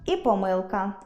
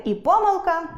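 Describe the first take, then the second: First: Помилка as поМИЛка; помилка with second-syllable stress; double stress. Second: Помилка as ПОмилка; помилка with first-syllable stress; double stress. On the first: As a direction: lean on МИЛ in помилка. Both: Shown as a demonstration. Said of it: "можуть мати подвійний наголос".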